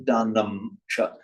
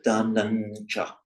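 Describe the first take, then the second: First: The first word ends with an M sound. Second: The first word ends with an N sound. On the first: The speaker calls it wrong. "You can see da num cha" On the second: The speaker calls it right. "but da nun cha"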